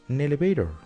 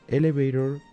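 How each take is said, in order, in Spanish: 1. La palabra empieza con un sonido n pegado. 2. La palabra empieza con un sonido de vocal simple. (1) "la palabra an le pertenece a la palabra elevator" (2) "en vez de pronunciar elevator"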